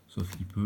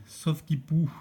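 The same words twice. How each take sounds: First: Said in the usual way. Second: Poue said with an "ou" sound instead of peut; pun mispronunciation. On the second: Shown as a demonstration. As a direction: say poue rhyming with "fou". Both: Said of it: "le jeu de mots".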